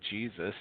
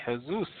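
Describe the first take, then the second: First: Said in the usual way. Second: "Jesus" the Spanish way, "heh-SOOS"; Spanish pronunciation. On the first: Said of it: "they don't say Jesus". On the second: Shown as a demonstration. Teacher showing how Spanish countries say it, "Jesus" as "heh-SOOS". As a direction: say "Jesus" with an h sound, stressed at the end. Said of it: "in Spanish countries ... they say Jesus".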